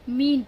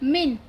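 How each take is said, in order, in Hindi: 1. स्वर को खींचकर लंबा बोला गया है। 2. स्वर को झटके से छोटा बोला गया है। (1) "मीन पढ़ते हैं" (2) "मैं इसे जल्दी से पढ़ दूं"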